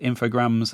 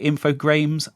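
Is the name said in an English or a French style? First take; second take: French; English. First: The name is said in a French style. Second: The name is said in an English style. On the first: The speaker calls it right. "I've always said Infogrames, and when I found out that they were French, um, that kind of cemented it in my mind that that was the correct pronunciation" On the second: The speaker calls it wrong. "I've heard people say Infogrames. I don't think that's right"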